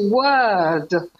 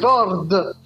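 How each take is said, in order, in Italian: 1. La R è muta e la vocale si allunga. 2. La R si pronuncia chiaramente dopo la vocale. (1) "invece word, perché serve solo per prolungare la vocale" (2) "in italiano vuole dire word"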